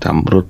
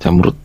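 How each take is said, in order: First: The word ends in a voiced d sound. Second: The word ends in a voiceless t sound. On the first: The speaker calls it wrong. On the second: The speaker calls it right. "orang Jawa kesulitan mengucapkan deh di akhir"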